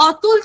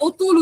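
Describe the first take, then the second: First: অতুল with an open 'aw' first vowel, ô-tul; spelling pronunciation. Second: অতুল with a closed 'o' first vowel, o-tul; altered pronunciation. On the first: Teacher showing students the unchanged vowel, demonstrating. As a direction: say অতুল as written, starting 'aw'. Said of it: "বিকৃত রীতি অনুযায়ী কেমন উচ্চারণ হয়". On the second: Teacher showing students the everyday vowel shift, demonstrating. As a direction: say অতুল starting with a round 'oh'. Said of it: "অতুল থেকে অতুল উচ্চারণ করছি আমরা". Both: Shown as a demonstration.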